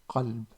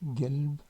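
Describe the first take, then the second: First: The word begins with a deep throaty Q sound. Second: The word begins with a hard G sound. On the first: This is how other regions say heart. "d'autres qui prononcent Qalb, Qa au lieu de K" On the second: This is how some regions say heart. "des régions euh, qui prononcent le G ici de Qalb là comme, comme Gelb"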